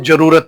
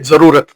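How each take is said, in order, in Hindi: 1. शब्द j ध्वनि से शुरू होता है। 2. शब्द z ध्वनि से शुरू होता है। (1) "ज्यादातर लोग उसको जरूरत पढ़ते हैं, जो कि एक गलत शब्द है" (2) "एक शब्द हम उर्दू में पढ़ते हैं"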